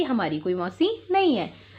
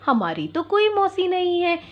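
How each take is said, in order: First: Said in the usual way. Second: Put-on higher, bold child voices; kids protesting. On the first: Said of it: "बकरी के बच्चे क्या कहते हैं". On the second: Goat kids answer the fox at the door, protesting. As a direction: insist like two little kids. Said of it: "दोनों बच्चे बोल उठे".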